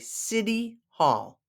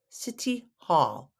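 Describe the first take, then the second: First: The t in city sounds like a soft d. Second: The t in city is a clear t. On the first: This is the everyday American way. "we pronounce it like it's a D" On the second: This is the careful, proper way. "if you're going to be proper"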